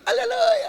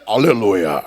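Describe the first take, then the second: First: It is said in a thin, high voice. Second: It is said in a deeper, changed voice.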